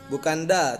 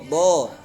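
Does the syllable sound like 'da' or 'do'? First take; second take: da; do. First: The syllable is light, sounding like 'da'. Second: The syllable is heavy, sounding like 'do'. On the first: The speaker calls it wrong. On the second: The speaker calls it right. "Do, bukan da, tapi do"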